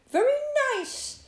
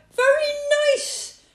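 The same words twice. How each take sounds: First: High-pitched little rabbit compliment; rabbit's praise. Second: High, very loud rabbit yell. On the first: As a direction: pipe up as an approving rabbit. Rabbit politely praises the hat. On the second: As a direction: yell it for someone hard of hearing. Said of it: "yelled Rabbit". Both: A narrator's reading.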